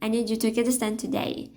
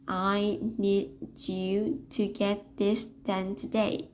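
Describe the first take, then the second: First: The sentence is spoken very fast. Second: The sentence is spoken very slowly. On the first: The speaker feels rushed and agitated. "if you are a super fast talker" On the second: The speaker seems condescending, talking down. "if we slow down that rate of speech"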